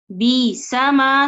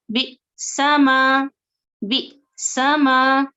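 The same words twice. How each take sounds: First: बिसमा slow and smooth, with no stop; wrong flowing reading. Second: बिसमा very slow, with a brief stop after बि; small jolt inside बिसमा; light catch on hamza. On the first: Teacher shows students the wrong way, no catch. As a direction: glide straight through बिसमा. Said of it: "तो ये गलत हो जाएगा". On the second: Teacher shows students the right way, with a slight stop. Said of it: "थोड़ा हल्का झटका देकर, थोड़ा वहां रुक कर". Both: Shown as a demonstration.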